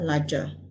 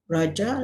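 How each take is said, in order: First: The word starts with an L sound. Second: The word starts with an R sound. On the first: This is the Hokkien-adapted form. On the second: This is the standard Malay form.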